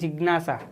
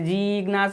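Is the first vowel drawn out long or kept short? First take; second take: short; long. First: The first vowel is kept short. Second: The first vowel is drawn out long. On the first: The speaker calls it right. "શોર્ટમાં બોલીએ છીએ" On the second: The speaker calls it wrong. "આપણે એને જિજ્ઞાસા એવી રીતે નથી બોલાવવાના"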